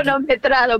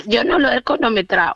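First: "cronometrado" said carefully with its r; corrected pronunciation. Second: "cronometrado" said "conometrao", first r dropped; mispronounced word. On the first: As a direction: say "cronometrado" fully, "cro" with a clear r. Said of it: "Cronometrado no". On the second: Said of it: "Cronometrado, ¿eh? Cronometrado no". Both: Real, not acted.

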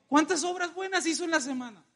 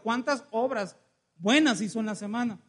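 First: High-pitched, pointed question; challenging question. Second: Said in the usual way. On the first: Real, not acted. Preacher quizzes congregation on their week, high challenging question. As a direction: put the congregation on the spot, high-voiced.

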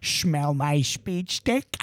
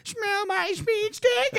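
First: Low, slow cartoon dad with a slurred lisp; lightly lisped lecherous purr; Peter Griffin impression. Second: High, slow, squeaky cartoon voice; high Peter Griffin impression. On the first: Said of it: "I say just like that". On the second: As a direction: pitch it way up and drag it out. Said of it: "be like".

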